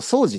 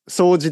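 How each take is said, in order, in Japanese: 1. 方言っぽい、違うアクセント型です。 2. 標準のアクセント型です。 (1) "でもね僕結構掃除って言ってるんですよね" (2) "掃除ですよね本当は"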